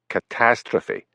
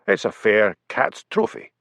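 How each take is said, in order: First: Said in the usual way. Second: "fair cat's trophy" said as three separate words, fair, cat's, trophy; mangled word. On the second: Acted. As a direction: blunder "fair cat's trophy" as fair plus cat's plus trophy, slowly. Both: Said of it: "corrected Hamish".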